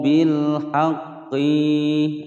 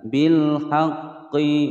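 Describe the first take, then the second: First: The final vowel of haqqi is drawn out long. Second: The final vowel of haqqi is short, one beat. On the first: The speaker calls it wrong. "q-nya dibaca panjang" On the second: The speaker calls it right. "dibaca pendek satu ketukan"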